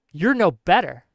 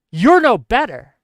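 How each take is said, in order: First: Said in the usual way. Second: Emphatic louder rebuke. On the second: Real, not acted. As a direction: hammer it home louder.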